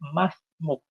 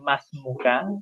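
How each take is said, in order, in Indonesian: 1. Kata ini diakhiri konsonan, vokalnya dihilangkan. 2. Kata ini diakhiri bunyi vokal. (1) "pengucapan sehari-hari cukup masmuk" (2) "kalau yang laki-laki masmuka"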